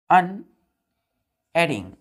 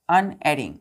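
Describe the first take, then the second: First: अनएडिंग drawn out very slowly; slow model word. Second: Said in the usual way. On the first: Shown as a demonstration. Teacher introducing a new word to pupils, very slow. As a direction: stretch अनएडिंग out syllable by syllable.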